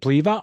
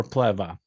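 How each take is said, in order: First: First vowel of Pleva like "flea"; long E in Pleva. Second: First vowel of Pleva like "bed"; short E in Pleva. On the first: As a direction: say Pleva as PLEE-vuh. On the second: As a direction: say Pleva as PLEV-uh. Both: Shown as a demonstration. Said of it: "Pleva, shorty".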